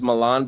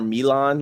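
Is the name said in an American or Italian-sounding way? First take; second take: American; Italian. First: The name is said with a plain American sound. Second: The name is said with an Italian-sounding accent. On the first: This is how the name is usually said. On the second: The person wants to seem foreign and fancy.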